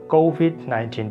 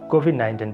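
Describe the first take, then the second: First: One sound in the phrase is stretched out long. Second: The sounds are kept short, without stretching. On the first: The speaker calls it right. "There is a stretch here" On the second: The speaker calls it wrong. "We you say COVID nineteen"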